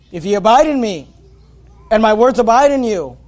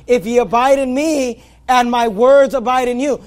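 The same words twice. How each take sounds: First: Said in the usual way. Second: Verse repeated with "words" brought out; stress on WORDS. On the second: Shown as a demonstration. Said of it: "notice the emphasis on the Word of God".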